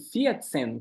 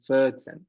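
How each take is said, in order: First: The first vowel is a clear 'ee' sound. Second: The first vowel is reduced, without the 'ee'. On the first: The speaker calls it wrong. "falando vierzehn com é, som de i" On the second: The speaker calls it right. "como se não tivesse i"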